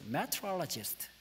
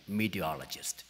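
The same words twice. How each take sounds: First: Meteorologist said syllable by syllable, very slow and soft, as met-ro-la-ist; Korean-accented English. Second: Meteorologist flapped and quick as mi-di-o-lo-jist; American pronunciation. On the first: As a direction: spell meteorologist out slowly like a textbook learner. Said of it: "발음 괜찮죠?". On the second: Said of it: "이렇게 알아듣는단 말이에요". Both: Shown as a demonstration.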